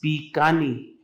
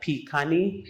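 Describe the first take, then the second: First: The word begins with a B sound. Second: The word begins with a P sound. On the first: The speaker calls it right. "So that's the word that you say B" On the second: The speaker calls it wrong. "a lot of people would say uh"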